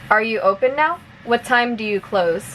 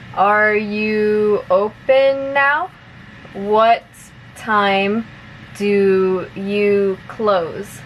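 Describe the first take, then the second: First: The sentences are spoken at a fast pace. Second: The sentences are spoken at a moderate pace. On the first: "one more time at normal speed" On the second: "a little bit faster now"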